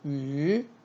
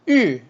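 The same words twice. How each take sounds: First: The pitch rises from mid to high. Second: The pitch falls sharply from high to low. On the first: "이성" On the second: "사성"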